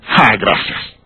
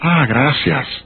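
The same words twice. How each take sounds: First: The thanks sounds cold and displeased. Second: The thanks sounds warm and grateful.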